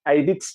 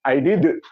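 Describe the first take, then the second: First: The final d stops plainly, with no bounce. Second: The final d ends with a bouncing echo. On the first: The speaker calls it wrong. "nggak boleh" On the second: The speaker calls it right. "harus kol-kolah"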